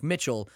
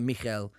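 First: "ch" said as in Mitchell; anglicised Michel with a tch sound; Michel read as Mitchell. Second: "ch" softened to h, not tch; Michel with an h sound. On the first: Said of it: "he spelled it M I C H E L". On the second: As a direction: say Michel the Polish way. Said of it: "like Mitchell, but Michel". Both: Shown as a demonstration.

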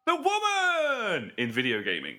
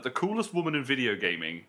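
First: "the woman" pitched high and drawn out, like a grand title; stress on THE. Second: Said in the usual way. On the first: Shown as a demonstration. Making a point to the panel, "the woman" grandly stretched. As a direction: proclaim "the woman" slowly and high, then drop. Stresses THE against plain take.

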